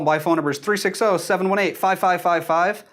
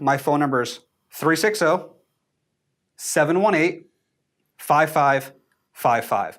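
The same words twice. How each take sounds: First: The number is said quickly without breaks. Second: The number is said slowly with clear pauses.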